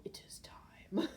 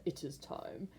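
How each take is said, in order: First: Put-on slow, breathy whisper of a wise old mentor; slow whispered prophecy; Rafiki from Lion King. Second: Said in the usual way. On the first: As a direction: hush it out slowly like a sage old baboon. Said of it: "the Rafiki off of Lion King go". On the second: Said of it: "I can't say that".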